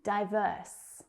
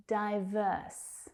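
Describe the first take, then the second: No difference in how they are said.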